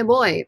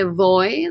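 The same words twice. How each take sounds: First: Put-on "boy" starting with a B, like English B-O-Y; B sound. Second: "voy" with a hard English-style V at the start; hard V sound. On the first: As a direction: close the lips for a B in "boy". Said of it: "kinda sounds like B O Y". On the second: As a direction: bite into the V of "voy". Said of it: "like a hard V sound". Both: Shown as a demonstration.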